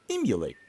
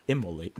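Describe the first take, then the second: First: "Emulate" with "myoo" in the middle; intended word. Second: "Immolate" with "mo" in the middle; mistaken word. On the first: Gamer comparing two confusable words, saying "Emulate" with "myoo". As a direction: say "em-you-late" alone, for comparison. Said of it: "I mean, emulate them". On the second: Gamer comparing two confusable words, saying "Immolate" with "mo". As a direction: say "im-mo-late" alone, for comparison. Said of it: "I mispronounce words all the time". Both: Shown as a demonstration.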